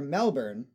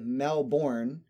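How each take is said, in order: First: The ending is reduced but still has an R. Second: The ending is said fully, with a clear R. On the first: "which would be understandable" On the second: "which would be completely inaccurate"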